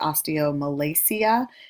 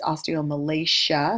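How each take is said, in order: First: The ending is said without an SH sound. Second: The ending is said with an SH sound. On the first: The speaker calls it wrong. "Some people say osteomalacia, which is wrong" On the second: The speaker calls it right. "it's a S H sound"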